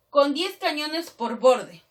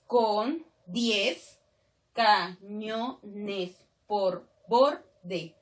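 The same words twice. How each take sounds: First: Said in the usual way. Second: Very slow, a gap after every syllable; deliberate scansion, counting out each syllable. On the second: Shown as a demonstration. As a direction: chop the verse into separate syllables. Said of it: "Si yo separo nada más".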